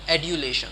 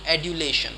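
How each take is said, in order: First: The middle consonant is a D sound. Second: The same.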